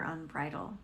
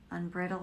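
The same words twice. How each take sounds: First: "unbridled" with a long i, like bridal; alternative pronunciation. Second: "Unbridled" with a short i, as in bridle-less "brid"; unsure pronunciation. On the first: Reader questioning a card word, alternative pronunciation. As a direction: say "unbridled" as un-BRY-duld. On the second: Reader trying out a card word, unsure pronunciation. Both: Shown as a demonstration.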